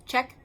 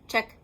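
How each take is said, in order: Both takes have the same delivery.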